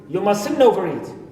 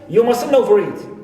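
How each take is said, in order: First: The t in mustn't is dropped. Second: The t in mustn't is dropped.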